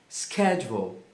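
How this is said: It is said with an American pronunciation. "A forma americana é schedule"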